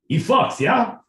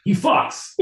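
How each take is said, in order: First: Mock Russian accent, higher and louder, cheeky rising yeah; lightly voiced Russian bragging. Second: Breathless voiceless laugh through the words; can't hold the bit, laughing. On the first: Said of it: "Russian, my boy Pete". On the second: Real, not acted. Breaks up laughing mid-bit.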